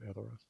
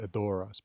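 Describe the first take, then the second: First: The stress falls on the first syllable. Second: The stress falls on the second syllable. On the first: The speaker calls it right. "with the emphasis on, on, on the eh" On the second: The speaker calls it wrong. "it's not Edoras"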